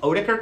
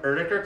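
First: The name is said with an American pronunciation. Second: The name is said with a German pronunciation. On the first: "In America, we call them Oetiker clamps" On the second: "if you are German, you pronounce them Oetiker clamps"

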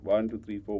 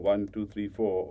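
First: The counting is at the fastest pace. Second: The counting is at a faster pace.

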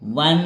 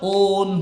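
First: The word begins with a 'w' sound. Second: The word begins with an 'o' vowel sound. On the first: The speaker calls it right. "तिथं उच्चार काय व्हायलाय? वन" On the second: The speaker calls it wrong. "तिथं ओन व्हायलंय का? नाही"

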